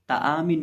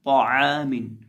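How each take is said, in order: First: ताआमिन said with a light, thin ता; the wrong way, ता kept thin; wrong thin reading. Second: ताआमिन with a heavy, full-mouthed ता, louder; correct heavy reading. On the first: Teacher shows students the wrong reading, thin sound. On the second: Teacher gives students the right heavy reading. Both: Shown as a demonstration. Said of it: "ताआमिन नहीं".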